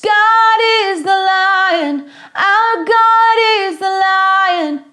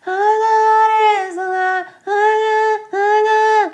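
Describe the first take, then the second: First: "God" with a gripped hard G, sung higher; firm G. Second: "God" sung with no grip on the G, like "hod"; weak G. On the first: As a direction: grab the G in "God". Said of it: "use this G consonant". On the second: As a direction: let the G slide away in "God". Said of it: "They sing". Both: Shown as a demonstration.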